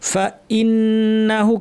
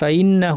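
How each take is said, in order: First: The glottal stop before the vowel is hard. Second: The glottal stop before the vowel is soft. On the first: The speaker calls it right. "এই হামজা চিহ্নটা কিন্তু শক্ত হবে।" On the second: The speaker calls it wrong. "অনেকে নরম করে ভুলটা কী কীভাবে পড়ে আমি ভুলটা দেখাচ্ছি।"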